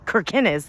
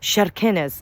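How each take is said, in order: First: The word begins with a hard k sound. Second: The word begins with a sh sound. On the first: The speaker calls it wrong. "we were pronouncing it" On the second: The speaker calls it right. "with a sh like that, like C H"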